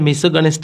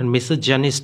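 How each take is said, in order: First: The middle consonant is a hard g sound. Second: The middle consonant is a soft j sound. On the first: The speaker calls it wrong. "আসলে মেসোগানিস্ট আসলে এটা উচ্চারণ না" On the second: The speaker calls it right. "এটা মেসোজানিস্ট হবে"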